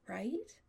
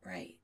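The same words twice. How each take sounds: First: "right" as a rising question. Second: "Right" said low, as a settled answer; agreeing. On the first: Adam seeking reassurance from Chris, "right" rising as a question. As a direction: lift "right" higher to ask for agreement. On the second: Chris agreeing with Adam, "Right" low and settled. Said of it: "Chris agrees". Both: A narrator's reading.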